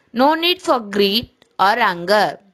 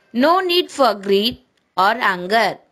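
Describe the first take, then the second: The two takes are said the same way.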